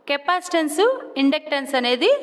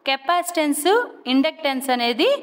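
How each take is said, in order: Both takes have the same delivery.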